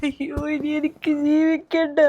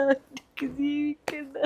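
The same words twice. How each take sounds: First: Wailed out, full voice; despairing wail. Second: Softer, slow, collapsing; broken repeat. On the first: Mother declaring she can't go on, wailing. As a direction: cry it out to the heavens. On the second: Mother repeating she can't go on, softly broken. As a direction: let the repeat fall apart. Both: Acted.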